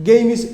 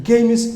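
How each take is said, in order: The two takes are said the same way.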